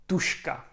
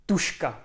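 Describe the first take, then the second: No difference in how they are said.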